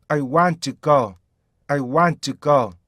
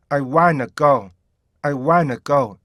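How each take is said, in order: First: "want to" as two separate words; careful "want to go". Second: "want to" melted into wanna; smooth N with no T in "wanna"; linked "wanna go". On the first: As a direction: sound a clear T in "want to". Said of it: "정확히 읽었다가". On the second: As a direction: drop the T in "wanna". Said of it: "약간 연음만 시켜서". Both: Shown as a demonstration.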